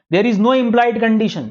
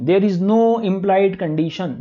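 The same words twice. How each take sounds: First: Slow, stress on no, spelled out for notes; a teacher dictating a rule to the class, stressing "no"; slow dictation. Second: Very slow, calm repeat with "no" marked; a teacher repeating the rule slowly for note-taking; slower dictation. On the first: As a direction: dictate it word by word, hitting "no". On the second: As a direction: repeat it slowly so they can write. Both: Shown as a demonstration. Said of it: "बोलो".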